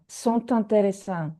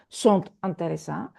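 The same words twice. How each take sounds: First: The T sound links into the next word. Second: The T stays silent with no link. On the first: The speaker calls it right. "You have to hear T" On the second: The speaker calls it wrong.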